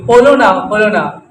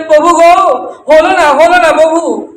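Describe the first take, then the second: First: Said in the usual way. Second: Higher-pitched retold lament, voice lifted; mildly acted pleading cry to the Lord; tearful plea. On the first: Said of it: "দুবার বললেন Gour সুন্দরকে". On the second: Murari weeping to his Lord at the riverbank, mock tearful plea. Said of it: "কাঁদতে কাঁদতে প্রভুকে বললেন".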